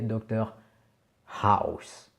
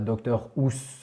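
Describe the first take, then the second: First: It has a breathed h and an 'ow' glide. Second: It sounds like French 'housse', with an 'oo' vowel. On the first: The speaker calls it right. "c'est Doctor House" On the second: The speaker calls it wrong. "C'est pas Doctor House de canapé"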